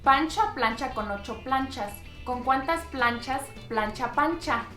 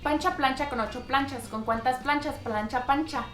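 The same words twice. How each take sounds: First: It is said at a slower, normal pace. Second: It is said at a fast pace.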